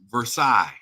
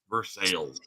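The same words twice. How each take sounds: First: It is said like the French palace name. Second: It is said as the English spelling reads. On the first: This is the name's original form. "just like the French palace" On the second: This is how locals in Kentucky say it. "It is pronounced like it is spelled"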